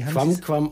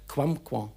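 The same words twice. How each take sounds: First: The final m is sounded fully. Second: The final m is light and nasalized. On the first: The speaker calls it wrong. "nicht ganz korrekt vorher ausgesprochen" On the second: The speaker calls it right. "am Schluss das M nur leicht klingen lassen und es leicht nasalieren"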